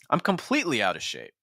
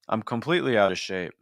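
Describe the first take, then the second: First: The pitch moves widely up and down. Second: The pitch stays narrow and flat. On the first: The speaker calls it right. "Which one is more engaging?" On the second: The speaker calls it wrong. "our pitch range is so limited"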